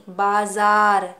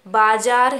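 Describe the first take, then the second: First: बाजार said with a z sound, baazaar, very slow; the correct बाजार with nukta z; right way. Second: बाजार said with plain j, as baajaar, slow; the wrong बाजार with a j sound; बाजार without the nukta, drawn out. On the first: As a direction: stretch out बाजार with a clear z. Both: Shown as a demonstration. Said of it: "यानी बाजार नहीं".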